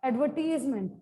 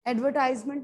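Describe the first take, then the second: First: The third syllable has an 'ee' vowel. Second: The third syllable has an 'eye' vowel. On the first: The speaker calls it right. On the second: The speaker calls it wrong.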